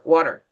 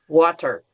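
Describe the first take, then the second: First: The T in the middle is soft and barely heard. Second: The T in the middle is crisp and clearly pronounced. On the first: This is how native speakers say it naturally. "like an English speaker" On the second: This is said carefully for beginners. "when I teach level one"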